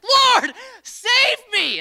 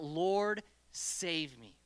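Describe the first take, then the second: First: It is cried out with real desperation. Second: It is said in a calm reading voice.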